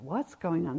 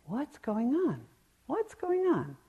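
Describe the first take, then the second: First: Said in the usual way. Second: Put-on high, eager little child asking; a child's voice pitched much higher; curious child. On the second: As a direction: play a small kid who has to know. Imitating endlessly curious children.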